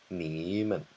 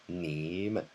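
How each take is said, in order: No difference in how they are said.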